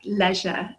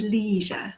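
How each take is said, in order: First: "leisure" with a short E; British pronunciation. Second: "leisure" with a long EE; American pronunciation. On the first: Teacher shows the English way, "leisure" rhyming with "pleasure". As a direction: say "leisure" as "LEZH-uh". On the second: British teacher imitates Americans, "leisure" as "lee-zhur". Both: Shown as a demonstration. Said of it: "lots of words like that".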